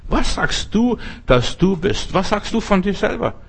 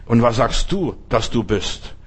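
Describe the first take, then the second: First: The same question thrown back at a much higher pitch, rising; pressing high question. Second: Said in the usual way. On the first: Acted. Preacher presses the question on his hearers in a high, pressing voice. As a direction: asks Was sagst du again, far higher and insistent. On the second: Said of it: "Da wird's von Johannes, dem Täufer, geredet".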